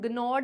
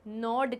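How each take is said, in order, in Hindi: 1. शब्द की शुरुआत एक सख़्त g आवाज़ से होती है। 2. शब्द की शुरुआत n की आवाज़ से होती है। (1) "ग्नॉड नहीं बोलेंगे" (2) "नॉड कहेंगे"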